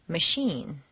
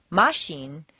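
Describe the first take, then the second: First: "machine" stressed on the second syllable, maCHINE; correct stress on machine. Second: "Machine" stressed on the first syllable, MAchine; wrong stress on machine. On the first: Teacher demonstrating correct stress on machine. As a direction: land on "chine". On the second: Teacher demonstrating wrong stress on machine. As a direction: put the weight on "Ma" by mistake. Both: Shown as a demonstration. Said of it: "is hardly recognizable as machine".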